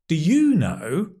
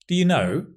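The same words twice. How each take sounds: First: The stress falls on the word you. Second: The stress falls on the word know. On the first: The asker does not know and turns the question to the listener. "That means I don't know. And what about you?" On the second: It is a plain, neutral question. "Just means"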